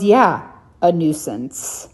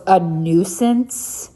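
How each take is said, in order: First: "nuisance" said slowly and flatly, falling; slow, deliberate falling "a nuisance"; slow firm repeat. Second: "nuisance" drawn out slow with a rising question; slow mocking echo of "A nuisance?"; slow disbelieving echo. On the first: Retold or imitated. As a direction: firmly restate "Yeah, a nuisance." slowly. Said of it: "She goes". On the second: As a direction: repeat "A nuisance?" slowly, incredulous. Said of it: "And he goes".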